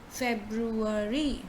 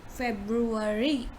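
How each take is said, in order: No difference in how they are said.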